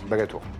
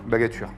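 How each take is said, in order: First: The last syllable sounds like 'tour'. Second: The last syllable sounds like 'ture'. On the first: This is how the name is actually pronounced. The speaker calls it right. "Et ça se prononce?" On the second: This repeats how the other person said the name. The speaker calls it wrong. "J'ai dit quoi?"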